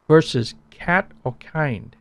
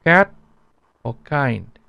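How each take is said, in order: First: "cat" and "kind" with a strong puff of air; breathy English "cat", "kind"; aspirated English K. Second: "cat" and "kind" without a puff of air; unaspirated K. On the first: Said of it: "can you hear the difference". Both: Shown as a demonstration.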